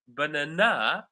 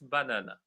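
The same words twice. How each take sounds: First: The stress is on the third syllable. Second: All syllables have equal stress. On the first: "third syllable" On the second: "They all have the same stress level"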